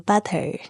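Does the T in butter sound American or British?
British. The T is said the British way. The speaker calls it right. "你要说 butter"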